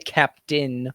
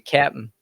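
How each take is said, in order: First: Captain is said with the outsider pronunciation. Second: Captain is said with the local pronunciation. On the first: This is not how people from here say it. The speaker calls it wrong. "We don't say captain" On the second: This is how people from here say it. The speaker calls it right. "We say captain"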